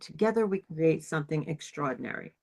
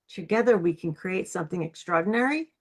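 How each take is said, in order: First: The pitch falls at the end. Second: The pitch rises at the end.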